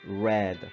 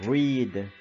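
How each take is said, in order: First: The vowel is not an 'ee' sound. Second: The vowel is a long 'ee' sound. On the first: It is the past tense. "Lo único que se diferencia es su pronunciación" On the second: It is the present tense. "en presente simple se va a pronunciar como read, R I D"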